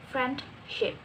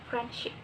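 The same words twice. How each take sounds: First: The d sound is kept in the word. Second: The d sound is dropped from the word. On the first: The speaker calls it wrong. "not friendship" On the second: The speaker calls it right. "So we say it like friendship"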